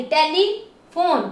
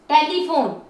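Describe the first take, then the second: First: telephone slowly, as tele and फोन; drawn-out, segmented telephone; syllable by syllable. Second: Said in the usual way. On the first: Shown as a demonstration. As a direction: sound out both parts of telephone. Teacher splits word into syllables.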